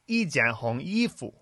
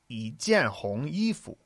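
First: The first syllable does not rise in pitch. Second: The first syllable rises in pitch. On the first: The speaker calls it wrong. "you went" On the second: The speaker calls it right. "It should be 一件, it changes to a second tone"

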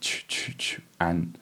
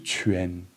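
First: The vowel sounds like the a in chuan. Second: The vowel sounds different from the a in chuan. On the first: The speaker calls it wrong. "I'm trying to say it wrong now" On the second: The speaker calls it right. "the A was pronounced differently from in Chuan"

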